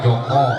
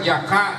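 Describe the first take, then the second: First: Both vowels are said as a rounded 'o'. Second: Both vowels are said as an open 'a'. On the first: This is the Javanese way of saying it. "di Jawa Joko" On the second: This is the Sundanese way of saying it. "di Sunda Jaka"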